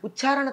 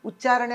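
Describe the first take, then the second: First: The middle consonant is aspirated. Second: The middle consonant is unaspirated. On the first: The speaker calls it wrong. "ఉచ్చారణ తప్పు" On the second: The speaker calls it right. "అక్కడ ఒత్తు లేదు"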